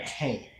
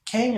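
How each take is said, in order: First: "cane" with a long A; long-a "cane", falling at the end; alternative pronunciation. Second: "Cane" said as "kang"; short-a "Cane", high and loud; alternative pronunciation. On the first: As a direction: say cane to rhyme with "rain". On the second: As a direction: say Cane with the vowel of "hang". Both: Shown as a demonstration. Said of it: "is it cane or cane".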